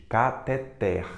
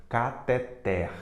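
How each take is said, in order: No difference in how they are said.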